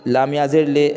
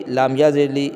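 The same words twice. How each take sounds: First: لے said with a short, unstretched e, like leh; لام یا زیر لے with the yeh kept short as e; short e sound. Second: لی said with a long ee, as in a stretched lee; لام یا زیر لی with the yeh stretched to a long ee; long ee sound. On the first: Teacher correcting to لے, saying it short and unstretched. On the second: Teacher spelling دلیر, first tries لی with a long ee. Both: Shown as a demonstration. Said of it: "کیا بولیں گے".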